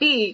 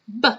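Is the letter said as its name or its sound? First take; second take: name; sound. First: The letter is said as its name. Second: The letter is said as its sound. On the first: "instead of saying B" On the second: "this time with the sounds"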